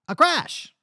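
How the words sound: It is said in an old-timey Western voice.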